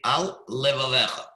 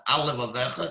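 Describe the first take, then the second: First: Short pause after "Al" before "levavecha"; brief pause. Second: "Al levavecha" blended into a single word; wrong, one-word reading; run together. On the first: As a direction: separate "Al" from "levavecha" with a tiny break. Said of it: "I made a brief pause after "Al". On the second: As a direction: glide from "Al" straight into "levavecha". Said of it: "it sounds like one word". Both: Shown as a demonstration.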